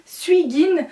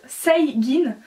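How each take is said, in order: First: "Suigin" said as written, with "sui"; spelling pronunciation. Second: "Seigin" said with "sei" at the start; correct name pronunciation. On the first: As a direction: read "Suigin" as spelt, starting "sui". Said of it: "ça s'écrit Suigin". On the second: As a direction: pronounce it "Seigin", sei not sui. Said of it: "ça se prononce Seigin". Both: Shown as a demonstration.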